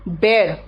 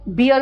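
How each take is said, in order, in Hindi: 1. स्वर 'bare' वाले स्वर जैसा है। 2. स्वर 'beer' वाले स्वर जैसा है। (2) "बियर मत बोलना"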